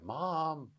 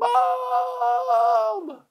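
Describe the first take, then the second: First: It is said quietly. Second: It is yelled loudly.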